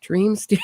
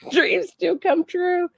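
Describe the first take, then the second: First: Said in the usual way. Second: Dreams do come true, laughing it out high and slow; a slow, high, laughing cheer; giddy laughing shout, much higher. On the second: Real, not acted. Gleeful about the arrest footage.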